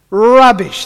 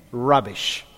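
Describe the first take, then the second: First: Loud, high declaration Rubbish; emphatic rubbish. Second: Said in the usual way. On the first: Shown as a demonstration. Pastor repeats it loudly to the church. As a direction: bellow Rubbish.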